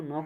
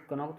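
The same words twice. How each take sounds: First: नॉक with a silent K, starting straight on the N; the silent K dropped in नॉक; correct pronunciation. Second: कनॉक with the K sounded before the N; the silent K wrongly voiced in कनॉक; wrong pronunciation. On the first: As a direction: say नॉक as plain "nock". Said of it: "इसको नॉक बोलेंगे". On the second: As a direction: say कनॉक with a hard K at the start. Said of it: "जैसे कनॉक थोड़ी बोलेंगे". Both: Shown as a demonstration.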